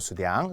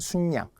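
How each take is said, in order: First: The second syllable starts with an r/l sound. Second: An n sound links into the second syllable. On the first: The speaker calls it wrong. "수량 아니에요" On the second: The speaker calls it right. "순양입니다"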